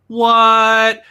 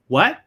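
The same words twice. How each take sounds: First: It sounds incredulous, expressing disbelief. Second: It sounds like a confused request to repeat. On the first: The listener does not believe what was said. "That might mean like, I don't believe you" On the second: The listener did not hear what was said. "That means, oh, I didn't hear"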